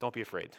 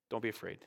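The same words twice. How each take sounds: First: Soft, low reassurance; softly spoken comfort; gentle comfort. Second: Even softer, lower, hushed reassurance; quieter, tender repeat; softer gentle comfort. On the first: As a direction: soothe a frightened man gently. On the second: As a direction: let the comfort fade almost to a murmur. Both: Retold or imitated. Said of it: "and say".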